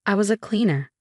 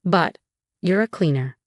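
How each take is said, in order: First: WAS lifted and firm, the rest level; stress on WAS. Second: Said in the usual way. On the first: A narrator's reading. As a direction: lean on the word WAS to correct him. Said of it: "I corrected him".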